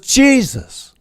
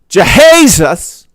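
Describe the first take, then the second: First: The name is said in two syllables. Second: The name is stretched into three syllables. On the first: It is used to calm people down. "two syllables" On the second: It is used for dramatic effect. "was three syllables"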